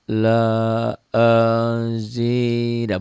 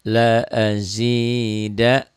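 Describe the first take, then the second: First: It is said overly slowly and drawn out. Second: It is said calmly at a moderate pace. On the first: The speaker calls it wrong. "bukan pelan la azida, bukan begitu ya" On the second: The speaker calls it right. "pelan di sini jangan terburu-buru"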